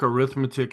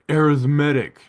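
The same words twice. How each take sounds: First: It is said the ordinary everyday way. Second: It is said to sound like logarithmic. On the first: "we all took arithmetic in school" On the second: "they like to pronounce it differently"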